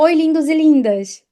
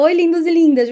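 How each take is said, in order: First: Said in the usual way. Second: Bright, higher, louder catchphrase greeting; her signature greeting. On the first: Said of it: "Pensa assim, se tu fala, por exemplo". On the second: Shown as a demonstration. Influencer greets her followers with her signature cheerful catchphrase. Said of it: "Quando eu falo".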